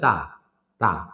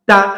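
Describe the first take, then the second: First: The syllable is said softly, without a pulse. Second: The syllable is said hard, released with a pulse. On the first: The speaker calls it wrong. "তাহলে এটা শক্ত হইল না" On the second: The speaker calls it right. "মানে একটু দৌড়ে ছেড়ে দেওয়া, পালস করে"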